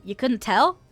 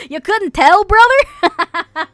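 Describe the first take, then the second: First: Said in the usual way. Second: Loud, high country American drawl; hammed-up American accent. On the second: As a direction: exaggerate a country American accent, louder and higher. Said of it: "I need to talk more like an American".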